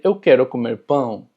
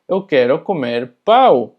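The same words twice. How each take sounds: First: Pão with a nasal -ão. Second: Pau loud, with an oral -au; slow Portuguese, landing on un-nasal pau; non-nasal pau. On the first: Teacher shows what you meant to say, nasal pão. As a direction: end the Portuguese phrase on nasal pão. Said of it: "cuando tú querías decir". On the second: Teacher shows what you'd wrongly say, oral pau. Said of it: "Así que tú estarías diciendo". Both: Shown as a demonstration.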